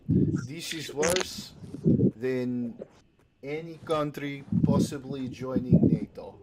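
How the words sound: It is said in a put-on Russian accent.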